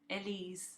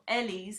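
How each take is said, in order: First: The stress is on the second syllable. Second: The stress is on the first syllable. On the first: The speaker calls it right. "I put this emphasis on the on the second half" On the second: The speaker calls it wrong. "You wouldn't say that"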